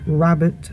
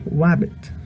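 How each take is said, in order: First: The word begins with an ordinary R sound. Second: The word begins with a W-like sound.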